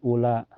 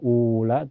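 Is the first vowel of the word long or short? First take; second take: short; long. First: The first vowel is kept short. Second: The first vowel is drawn out long. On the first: The speaker calls it right. "tapi ula" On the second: The speaker calls it wrong. "jangan dipanjangkan"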